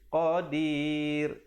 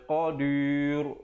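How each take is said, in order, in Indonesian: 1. Bunyi r di akhir itu ringan dan tipis. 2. Bunyi r di akhir itu berat dan tebal. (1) "dibacakan dengan nipis" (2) "Jangan baca qadir. Itu tak betul ya"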